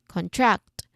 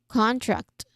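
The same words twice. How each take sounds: First: The stress is on the second syllable. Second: The stress is on the first syllable. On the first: "to the second syllable" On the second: "from the first syllable"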